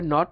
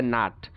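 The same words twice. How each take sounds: First: British নট with rounded O; British pronunciation. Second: American নাট (not) as NAHT; American pronunciation. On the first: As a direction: say নট as NOT, lips rounded. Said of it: "ব্রিটিশরা বলে". (নট-এ অ, British উচ্চারণ) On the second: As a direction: open AH in নাট. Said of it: "আমেরিকানরা বলে". (নাট-এ আ, American উচ্চারণ) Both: Shown as a demonstration.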